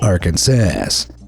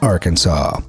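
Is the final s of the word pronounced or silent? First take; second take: pronounced; silent. First: The final s is pronounced. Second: The final s is silent. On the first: The speaker calls it wrong. "Those would be both considered illegal" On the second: The speaker calls it right. "only one right way to pronounce the state name, with the final S being silent"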